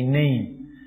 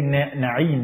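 First: It is said just like the English word 'name'. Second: It is said in its original form, unlike 'name'. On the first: This is how people locally say it. "they say Name" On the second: This is the name as it was meant. "They don't say Na'im"

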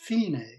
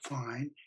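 First: It is said the Italian way, like fee-nay. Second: It is said like English fine, rhyming with line. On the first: The piece ends here. The speaker calls it right. "it's fine, it's Italian, means the finish" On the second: A job was done well. The speaker calls it wrong. "It's not fine"

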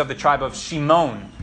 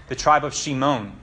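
Both takes have the same delivery.

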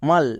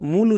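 First: The vowel is a short 'uh' sound. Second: The vowel is a long 'oo' sound. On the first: The speaker calls it right. "But ইউয়ের জন্য আ হবে" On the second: The speaker calls it wrong. "একে অনেকে ভুল করে মূল উচ্চারণ করে"

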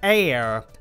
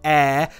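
First: The word is said in a non-British accent. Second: The word is said in a British English accent. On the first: "in other parts of the world you might say air" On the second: "we say air"

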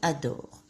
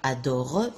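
First: The final E vowel is silent. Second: A final E vowel is sounded. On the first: The speaker calls it right. "on dit Momo adore" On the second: The speaker calls it wrong. "On ne dit pas adore"

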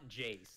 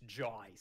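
First: The name is said in a plain, non-Australian accent. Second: The name is said in an Australian accent. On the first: The speaker calls it wrong. "It's not Jace" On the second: The speaker calls it right. "They force you to say it in an Australian way"

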